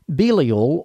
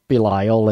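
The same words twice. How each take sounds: First: The name is said in a standard pronunciation. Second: The name is said in a Southern US pronunciation.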